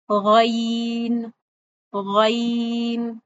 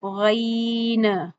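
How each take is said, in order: First: गैन drawn out slowly from the upper throat; the right way, गैन smooth and steady; correct ghain. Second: गैन with the pitch tossed up at the end; wrong demo, flick गैन up as it ends; गैन with an upward jump on the final sound; bounced ending. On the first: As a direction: model गैन, even from start to end. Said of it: "कैसे पढ़ना है? कैसे पढ़ेंगे हम?". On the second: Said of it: "ना ही गैन की आवाज को एंड पे उछालना है". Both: Shown as a demonstration.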